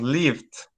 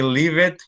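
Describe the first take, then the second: First: The ending is a single D sound. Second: The ending is an extra syllable. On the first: The speaker calls it right. "lived is with a D sound" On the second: The speaker calls it wrong. "Never say leave it"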